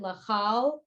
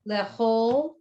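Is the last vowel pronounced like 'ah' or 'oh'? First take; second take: ah; oh. First: The last vowel sounds like 'ah'. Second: The last vowel sounds like 'oh'. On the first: The speaker calls it wrong. "why isn't it lechal? But a lot of words that it looks like an a" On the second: The speaker calls it right. "they're pronounced more o"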